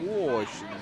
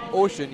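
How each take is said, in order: First: "ocean" with a long, rounded Russian O, low and falling; Russian pronunciation. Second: Said in the usual way. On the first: Shown as a demonstration. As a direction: drop the pitch and round the O of "ocean". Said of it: "you say". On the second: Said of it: "you don't say".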